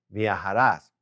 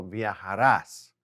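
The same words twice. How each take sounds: First: Said in the usual way. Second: Viajarás said slowly, stress on the final rás. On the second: Shown as a demonstration. Teacher spelling out the tú form, slow and clear. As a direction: draw out viajarás syllable by syllable. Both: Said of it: "we're gonna put as on there".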